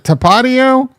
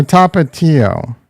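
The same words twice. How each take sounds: First: Tapatio as tuh-PAH-dee-oh; alternative pronunciation. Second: Tapatio as TAH-pah-TEE-oh; alternative pronunciation. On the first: Streamer asking viewers which pronunciation, stress on second syllable of Tapatio. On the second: Streamer offering viewers the other option, Tapatio as TAH-pah-TEE-oh. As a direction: say Tapatio slowly with a clear TEE. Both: Shown as a demonstration. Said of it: "is it Tapatio or Tapatio".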